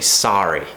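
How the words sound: The first vowel is open, American style. "an American would say sorry"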